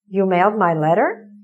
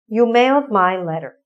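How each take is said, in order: First: It is said with questioning intonation. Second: It is said with plain statement intonation. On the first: "How do we change it to a question?" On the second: "That's a sentence"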